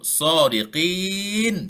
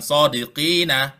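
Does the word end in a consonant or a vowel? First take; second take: consonant; vowel. First: The word ends on a bare consonant. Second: The word ends with an added vowel. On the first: The speaker calls it right. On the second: The speaker calls it wrong. "bukan sodiqina"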